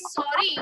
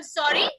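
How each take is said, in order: First: "sorry" said as an apology, in a falling tone. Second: "Sorry" lifted at the end like a question; rising tone. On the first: Teacher showing how to apologize, "sorry" in falling tone. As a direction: let "sorry" fall in tone to apologize. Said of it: "in the falling tone". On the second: Teacher demonstrating "excuse me" meaning, "Sorry" in rising tone. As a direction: say "Sorry" louder, rising, as if asking for a repeat. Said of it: "sorry in the rising tone". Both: Shown as a demonstration.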